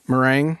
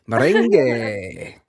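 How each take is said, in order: First: The word is said in a plain English way. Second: The word is said with a Spanish flavor. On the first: The speaker calls it wrong. "Am I mispronouncing that?" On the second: The speaker calls it right. "extra little salsa kind of way of saying it"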